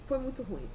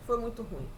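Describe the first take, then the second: No difference in how they are said.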